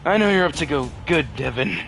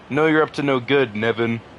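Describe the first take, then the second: First: It is said in a put-on Dante voice. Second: It is said in the speaker's normal voice.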